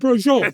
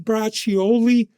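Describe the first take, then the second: First: The word is clipped, its final vowel dropped. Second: The word is said in full, as written. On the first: The speaker sounds like someone who grew up eating it. The speaker calls it right. "It's brojol" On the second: The speaker sounds like an outsider to the culture. The speaker calls it wrong. "I don't sound like, yeah, you have any braccioli?"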